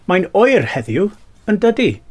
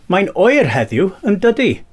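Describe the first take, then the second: No difference in how they are said.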